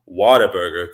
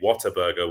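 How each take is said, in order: First: It is said in a local Texan accent. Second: It is said in the speaker's British accent.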